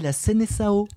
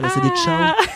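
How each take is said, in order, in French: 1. Le c se prononce comme un s doux. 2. Le c se prononce comme un k dur. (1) "comme c'est écrit phonétiquement et il y a une CDI sous le C, on dit la Seleção" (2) "pas la Seleção"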